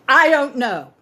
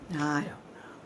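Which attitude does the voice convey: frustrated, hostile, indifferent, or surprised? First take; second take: hostile; indifferent. First: It sounds hostile, warning the listener away. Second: It sounds indifferent and uncaring. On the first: "which means back off"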